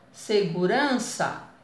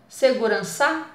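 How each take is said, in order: First: The stress is on the second-to-last syllable. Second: The stress is on the last syllable. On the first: The speaker calls it right. "Vamos tentar uran" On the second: The speaker calls it wrong. "Vamos tentar primeiro o, a última sílaba"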